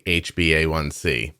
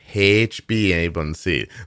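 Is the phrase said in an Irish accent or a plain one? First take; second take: plain; Irish. First: It is said in the speaker's usual accent. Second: It is said imitating an Irish accent. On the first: "when you say" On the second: "comes out H b A one c. Like that"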